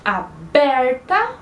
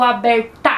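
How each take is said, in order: First: "aberta" slowly, with the middle BER punched; "aberta" stretched on its second syllable; stress on BER. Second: "aberta" with the final TA punched and raised; wrongly stressed "aberta", ending on a strong TA. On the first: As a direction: lean hard on the BER in "aberta". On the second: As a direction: push the weight onto the last syllable of "aberta". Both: Shown as a demonstration. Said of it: "o pedacinho que a gente fala mais forte".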